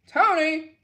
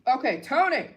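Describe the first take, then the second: First: Higher, louder call of the name. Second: Said in the usual way. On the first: Real, not acted. Reading donations, she calls out to a donor, loud call. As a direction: call the name out across the room.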